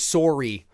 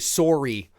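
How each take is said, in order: First: It is said in a Canadian accent. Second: The same.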